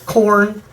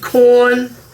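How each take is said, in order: First: It is said without a Boston accent. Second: It is said in a Boston accent. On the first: The speaker calls it right. "Sorry, Corn. Gotta pronounce" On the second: The speaker calls it wrong. "Get rid of the Boston accent"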